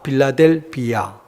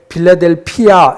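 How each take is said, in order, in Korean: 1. 네 번째 음절은 예사 b 소리로 시작합니다. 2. 네 번째 음절은 거센 p 소리로 시작합니다. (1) "빌라델비아 교회입니다" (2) "이렇게 하면 안 됩니다"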